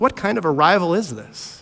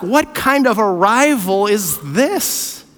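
First: Said in the usual way. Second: Slow, puzzled question as Mary; Mary's wondering question. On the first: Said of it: "the question that Luke wants us". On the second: Retold or imitated. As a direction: ask it slowly, in wonder. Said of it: "what's the question Mary is going to ask".

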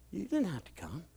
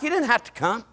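First: Hushed, gentle reassurance; very soft tender line. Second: Said in the usual way. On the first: Retold or imitated. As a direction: say it almost under breath. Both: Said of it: "I'm like".

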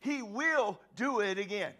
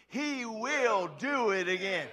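First: Said in the usual way. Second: "He will do it again" drawn out slowly, weight on "do"; slow, stressed on do. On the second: Shown as a demonstration. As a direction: lead the crowd word by word, leaning on "do". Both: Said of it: "somebody else needs to say that with me".

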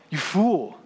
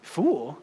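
First: A firm, final pronouncement; God's stern verdict. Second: Incredulous echo. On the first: God condemning the rich man, firm verdict. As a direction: deliver it as a judgement, not an insult. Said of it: "And God says". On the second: Preacher doubting God's word to the rich man, incredulous. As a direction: question the word as if it can't be right. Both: Retold or imitated.

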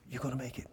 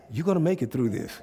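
First: Hushed, breathless inner voice; whisper. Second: Said in the usual way. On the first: Retold or imitated. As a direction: whisper it like a voice inside you. The inner voice speaking.

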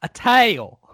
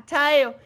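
First: Teasing "tail" said higher and louder, mimicking the slip; mock the friend's "tail" for tell; mocking mispronunciation. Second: "tail" echoed higher, half laughing at own slip. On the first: Cohost teasing the friend's slip, mocking. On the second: Shown as a demonstration. Guy owning his own slip, laughing echo. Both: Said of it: "Ha ha".

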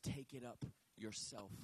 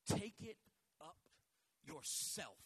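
First: Quoting scripture, dwelling on Take it up yourself; lower, slower reading of Take it up yourself. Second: Preacher spacing out Take it up yourself in pieces; Take it up yourself, with pauses between the words. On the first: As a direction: Take it up yourself, read slowly, hitting take. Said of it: "The scripture literally says". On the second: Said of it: "that hurts my head". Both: Shown as a demonstration.

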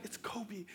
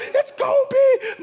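First: Much softer, breathless "It's Kobe."; hushed, starstruck under the breath; awed hush. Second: High, loud, laughing cry of "It's Kobe!"; thrilled squeal of recognition; excited shout. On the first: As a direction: murmur "Kobe" in stunned awe. Awestruck as Kobe walks in. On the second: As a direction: yell "Kobe" like a starstruck fan. Spotting a celebrity, excited. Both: Retold or imitated.

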